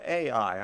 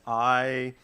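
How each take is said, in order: First: The name is said as two separate syllables. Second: The name is said as one syllable. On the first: "some preachers call it A I" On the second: "I'm going to call it I"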